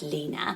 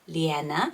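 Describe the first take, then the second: First: The name does not sound like Leona. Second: The name sounds a bit like Leona. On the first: This is how the speaker first imagined the name. "which I thought was Lena" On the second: This is how the name is said in Sweden. "in Sweden, it's more like Lena, Lena, um, a bit like Leona"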